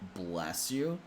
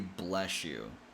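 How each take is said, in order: First: The words link with an s sound. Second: The words link with an sh sound. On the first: "Some people connect with the S sound" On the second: "some people connect with an S H sound"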